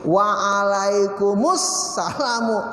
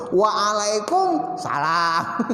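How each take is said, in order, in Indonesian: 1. Bunyi 'us' menyambung menjadi 'salamu' yang utuh. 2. Bunyi penyambung dihilangkan sebelum 'salam' yang pendek. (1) "Jadi ini tuh nyambung ke sini" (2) "Cuman lidah orang Indonesia gimana?"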